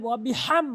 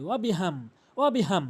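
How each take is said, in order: First: ওয়াবিহাম with a strong h from the throat; big throaty H. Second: ওয়াবিহাম with a plain, light h; wrong light H. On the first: Teacher giving the correct form, throaty-h ওয়াবিহাম. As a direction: push the h of ওয়াবিহাম through a tightened throat. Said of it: "বড় হা উচ্চারণ করতে হবে". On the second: Teacher showing most people's mistake, plain-h ওয়াবিহাম. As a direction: say ওয়াবিহাম with no throaty h. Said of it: "ভুল করে হাম বলে". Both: Shown as a demonstration.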